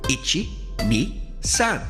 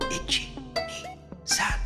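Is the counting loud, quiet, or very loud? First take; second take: loud; quiet. First: The counting is spoken somewhat louder. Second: The counting is spoken very quietly. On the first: "a little louder" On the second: "very quietly"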